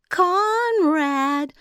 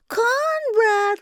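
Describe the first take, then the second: First: High, loud sugary call; sweet calling giantess. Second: Much higher, loud sing-song call; sweet calling giantess. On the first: Giantess calling her brother Conrad, sweet high call. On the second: Giantess calls Conrad again, higher and louder. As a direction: stretch the name out, calling louder. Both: A narrator's reading. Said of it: "began to call in that strange, sweet voice".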